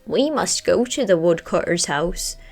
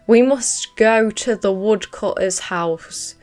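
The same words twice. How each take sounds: First: It is said in the raven character's voice. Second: It is read in the speaker's normal voice.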